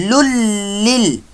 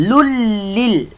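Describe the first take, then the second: The two takes are said the same way.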